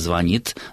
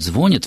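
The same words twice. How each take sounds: First: The stress is on the second syllable. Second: The stress is on the first syllable. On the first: This is the standard norm. The speaker calls it right. "ударение в этих формах этого слова ставится на окончание" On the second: This is how most people say it today. The speaker calls it wrong. "три четверти русскоязычных людей говорят «звонит»"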